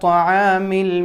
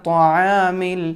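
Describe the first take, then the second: Both takes have the same delivery.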